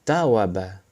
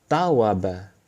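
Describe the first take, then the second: Both takes have the same delivery.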